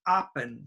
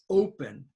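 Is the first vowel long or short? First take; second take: short; long. First: The first vowel is short. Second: The first vowel is long. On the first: The speaker calls it wrong. "this is not open" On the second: The speaker calls it right. "this is open"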